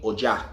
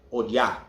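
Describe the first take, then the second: First: "Oja" with an English J, o-JA; Afro-Cuban J sound. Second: "Oya" as o-YA; Y pronunciation. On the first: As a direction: say "Oja" with J replacing the Y. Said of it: "sound like O J A". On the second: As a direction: say "Oya" with a Y glide. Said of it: "O Y A". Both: Shown as a demonstration.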